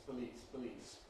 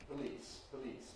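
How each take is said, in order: Both takes have the same delivery.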